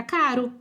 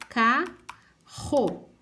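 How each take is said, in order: First: CARO with a light tapped R; weak single R. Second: CARRO slow and split, RR as a strong H; strong double R. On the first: Teacher warning what one R gives, weak R in "caro". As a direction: say "caro" with the R as one quick tap. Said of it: "se eu colocar um R só". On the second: Teacher showing what two Rs give, strong R in "carro". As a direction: separate "carro" into two, hard aspirated RR. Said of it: "o som tiver bem f". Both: Shown as a demonstration.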